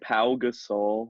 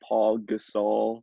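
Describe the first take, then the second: First: The first name ends without an L sound. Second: The first name ends with an L sound. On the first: The speaker calls it right. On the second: The speaker calls it wrong. "not Paul Gasol"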